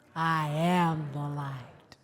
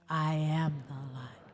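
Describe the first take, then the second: First: It is said with strong, emphatic conviction. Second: It is said plainly, without extra conviction.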